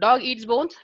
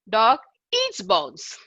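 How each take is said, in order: First: No word is given special stress. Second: The word eats is stressed.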